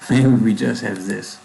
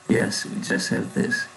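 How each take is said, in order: First: Said in the usual way. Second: Soft whisper to himself; whispered repeat. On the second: Real, not acted. Coder whispers the line to himself in confirmation.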